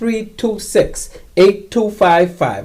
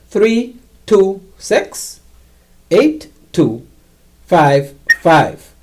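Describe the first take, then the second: First: It is said at a faster pace. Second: It is said at a slower pace.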